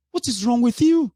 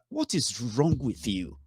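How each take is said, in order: First: Much higher, louder outburst; exasperated shout. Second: Said in the usual way. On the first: Real, not acted. Speaker scolding squabbling followers, shouting in exasperation. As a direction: yell it at them in disbelief. Scolding his listeners, repeated.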